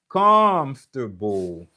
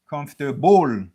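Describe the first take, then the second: First: The stress is on the first syllable. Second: The stress is on a later syllable. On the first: The speaker calls it right. "premier syllabe lan, c'est là que wap jwen et stress lan" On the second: The speaker calls it wrong. "Ou pa ka di comfortable"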